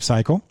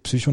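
First: The word is pronounced with English sounds. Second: The word is pronounced with German sounds. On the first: The speaker calls it wrong. "nicht Psycho" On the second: The speaker calls it right. "dass es deutsch ausgesprochen wird"

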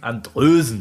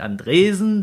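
First: The name is said with a rounded ö vowel. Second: The name is said with a plain e vowel. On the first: The speaker calls it right. "der heißt Andrösen" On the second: The speaker calls it wrong. "der heißt nicht Andresen"

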